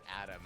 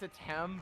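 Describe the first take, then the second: First: The name is said like Adam, with d. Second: The name is said with a t sound. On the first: The speaker calls it wrong. "I mispronounced it Adam" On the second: The speaker calls it right. "it's Atem"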